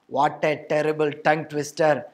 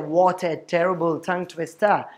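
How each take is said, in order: First: The 't' sounds are said as a heavy Malayalam-style 'ta'. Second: The 't' sounds are said as a crisp English 't'. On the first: This sounds like mixed Malayalam-English speech. The speaker calls it wrong. "will make you a Monglish speaker" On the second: This sounds like English speech. The speaker calls it right. "will make you an English speaker"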